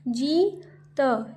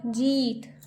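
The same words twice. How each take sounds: First: जीत slowly as जी, pause, त; split syllables. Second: Said in the usual way. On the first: Shown as a demonstration. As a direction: sound out जीत with long ee. (जीत को तोड़कर, जी-त) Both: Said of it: "जैसे मैं बोल रही हूँ".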